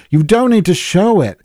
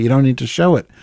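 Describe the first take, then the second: First: "need" hit hard and higher, falling at the end; emphatic repeat. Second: Said in the usual way. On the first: Real, not acted. Friend hammering the point home, stressing "need". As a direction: drive home "need" in "You don't need to show it.".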